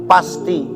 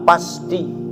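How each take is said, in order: Both takes have the same delivery.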